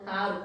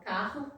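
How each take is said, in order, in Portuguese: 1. O r tem um sotaque influenciado pelo alemão. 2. O r tem um sotaque brasileiro padrão. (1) "eu tenho uma descendência alemã" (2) "eu consigo articular"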